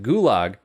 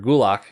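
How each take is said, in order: First: The word ends with a voiced G sound. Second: The word ends with a voiceless K sound. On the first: The speaker calls it wrong. "technically we're saying it wrong" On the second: The speaker calls it right. "pronounced closer to Gulak with more of a G K combination sound"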